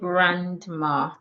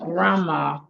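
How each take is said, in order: First: The d sound in the middle is pronounced. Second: The d sound in the middle is silent. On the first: The speaker calls it wrong. "So we don't say grandma" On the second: The speaker calls it right. "we say grammar"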